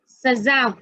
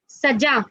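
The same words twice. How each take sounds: First: The middle consonant is a z sound. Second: The middle consonant is a j sound.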